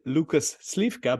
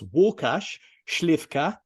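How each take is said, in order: First: The name is said with English-style sounds. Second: The name is said with Polish sounds. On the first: This is how English speakers would say it. "his name to you would be" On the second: This is how Polish speakers say it. "but to me it's"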